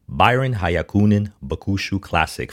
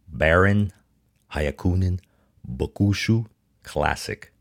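First: The name is said smoothly and fluently. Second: The name is said choppily, like a robot. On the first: The speaker calls it right. "I'm going to try to say that smoothly" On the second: The speaker calls it wrong. "I sounded like a robot there"

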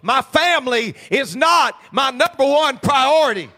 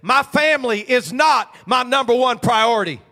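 First: It is said with strong, forceful emphasis. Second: It is said with plain, calm emphasis.

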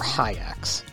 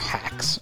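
First: The name sounds like "hi-acks". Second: The name sounds like "hacks". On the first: "Not hikes or hacks or hi-acks" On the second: "Not hikes or hacks or hi-acks"

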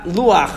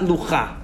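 First: The 'ah' vowel comes before the final consonant. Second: The 'ah' vowel comes after the final consonant. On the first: The speaker calls it right. "You say ah, luach" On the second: The speaker calls it wrong. "not lucha"

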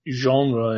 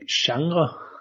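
First: The word is pronounced the English way. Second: The word is pronounced the Danish way. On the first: "So genre in English" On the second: "It's like genre"

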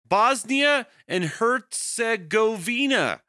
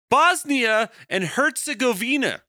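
First: The name is said haltingly, as if unfamiliar. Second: The name is said more smoothly and confidently. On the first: The speaker calls it wrong. "I pronounced that like that's the first time I ever heard of that country" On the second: The speaker calls it right. "That was a little better"

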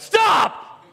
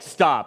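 First: It is yelled loudly and sharply. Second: It is said calmly at normal volume.

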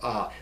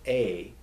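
First: The vowel is an open 'ah' sound. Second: The vowel is a long 'ay' sound. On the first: The speaker calls it right. "It's either a or ah" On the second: The speaker calls it wrong. "don't ever pronounce it as A"

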